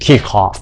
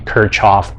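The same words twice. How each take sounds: First: The name is said with a German pronunciation. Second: The name is said with an American pronunciation. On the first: "in a more German style, you should pronounce it as Kirchhoff" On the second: "for American English, they would like to pronounce it as Kirchhoff"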